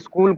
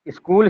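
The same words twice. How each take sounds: First: It starts directly with the s cluster. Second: A vowel sound is added before the s.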